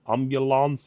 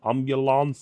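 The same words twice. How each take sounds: First: It is said in an Italian accent. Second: The same.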